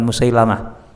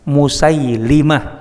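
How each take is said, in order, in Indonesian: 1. Vokal setelah 'Musail-' adalah 'a'. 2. Vokal setelah 'Musail-' adalah 'i'. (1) "bukan Musailamah" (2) "Yang benar Musailimah"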